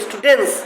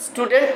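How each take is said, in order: First: স্টুডেন্টস ending in -ens, T gone; silent T in plural. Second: Said in the usual way. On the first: Shown as a demonstration. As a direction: model স্টুডেন্টস as "stu-dens". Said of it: "তখন আর টি নাই উচ্চারণের বেলায়". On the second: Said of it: "থেকে হয়ে যাবে".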